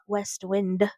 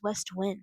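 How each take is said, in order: First: The second word ends with a d sound. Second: The second word ends without a d sound. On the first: The speaker calls it wrong. "not West Wind" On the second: The speaker calls it right. "the name of the company is West Wind ... there's no D"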